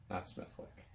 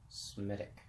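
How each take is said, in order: First: "Smithwick" whispered with TH and W; almost whispered wrong name; hushed "Smithwick". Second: "Smittick", hushed, no TH, no W; softly drawn out "Smittick"; quiet slow "Smittick". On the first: Whispering the wrong name to viewers. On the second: Repeating the right name for viewers, hushed. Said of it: "They don't pronounce the T". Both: Shown as a demonstration.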